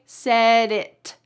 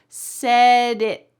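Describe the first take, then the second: First: The final T is released with a puff of air. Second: The final T is stopped with no air released. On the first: The speaker calls it wrong. "I didn't say said it" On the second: The speaker calls it right. "the T is going to be stopped at the top of your mouth"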